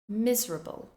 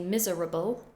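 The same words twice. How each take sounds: First: The word is condensed with a syllable reduced. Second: Every syllable is fully pronounced. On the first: The speaker calls it right. "we condense it" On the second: The speaker calls it wrong. "We don't say miserable"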